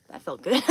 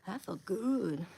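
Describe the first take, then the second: First: Said loud, still riding the stretch; a loud burst of relief. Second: Said in the usual way. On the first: Real, not acted. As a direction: blurt it out loud, satisfied. Right after cracking his back.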